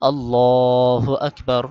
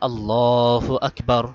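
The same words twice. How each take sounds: The two takes are said the same way.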